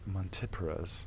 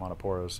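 First: The word gets a careful, scientific pronunciation. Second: The word gets a casual, everyday pronunciation.

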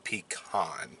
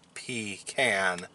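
First: The second syllable rhymes with con. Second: The second syllable rhymes with can. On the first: The speaker calls it wrong. "not a pecan" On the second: The speaker calls it right. "it is a trash can, not a trash con. Therefore it is a pecan"

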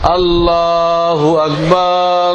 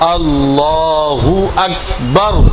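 First: The last vowel of Akbar is drawn out. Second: The last syllable of Akbar is said quickly. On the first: The word becomes the name of Satan. The speaker calls it wrong. "আকবার টান দিল, আকবার টান দিলে শয়তানের নাম হয়।" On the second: The word keeps its meaning of greatest. The speaker calls it right. "এতে বারকে তাড়াতাড়ি করতে হবে"

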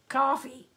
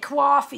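First: Coffee is said without a strong regional accent. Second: Coffee is said in a strong New York accent. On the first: "You just say coffee" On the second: "so you don't say coffee"

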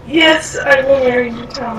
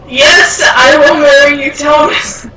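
First: It is said at a quieter volume. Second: It is said at a louder volume.

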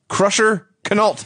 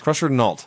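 First: The K at the start of the name is pronounced. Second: The K at the start of the name is silent. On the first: "as Tony Schiavone pronounced it" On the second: "I would assume a silent K"

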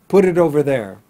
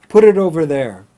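The two takes are said the same way.

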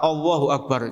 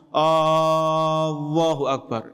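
First: The opening vowel is short. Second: The opening vowel is drawn out long. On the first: A statement that God is the greatest. The speaker calls it right. "harus tepat Allahu akbar" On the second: A question asking whether God is the greatest. The speaker calls it wrong. "hamzanya dipanjangkan ... artinya apakah Allah Maha Besar?"

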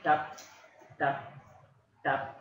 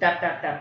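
First: The taps are spaced slowly apart. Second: The taps follow each other quickly. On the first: The counter clicks at its usual rate. "instead of" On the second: Radiation is coming back to the counter. "the speed of this kind of increases"

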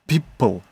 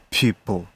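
First: The P is a hard, popping burst. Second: The P is soft with breathy air. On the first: The speaker calls it wrong. "не people" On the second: The speaker calls it right. "P мягко сделать ... вот именно с придыхом"

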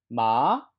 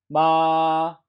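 First: The pitch rises from middle to high. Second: The pitch stays high and level throughout. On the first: "2성은" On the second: "1성"

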